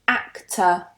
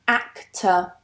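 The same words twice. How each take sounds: No difference in how they are said.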